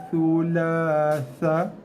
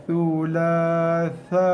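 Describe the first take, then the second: No difference in how they are said.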